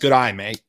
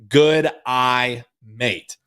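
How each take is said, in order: First: The phrase is said at a quicker pace. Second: The phrase is said at a slower pace.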